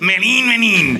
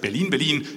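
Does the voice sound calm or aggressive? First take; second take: aggressive; calm. First: The words sound harsh and aggressive. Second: The words sound calm and neutral.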